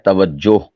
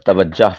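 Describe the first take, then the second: First: The last syllable has an oh vowel. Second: The last syllable has an ah vowel. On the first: The speaker calls it right. "सही क्या है?" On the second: The speaker calls it wrong. "ये गलत है।"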